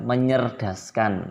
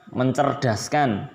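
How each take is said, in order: First: The c sound becomes ny after the prefix. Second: The c sound is kept after the prefix. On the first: The speaker calls it wrong. "tidak tidak menyerdaskan" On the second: The speaker calls it right. "yang benar adalah mencerdaskan"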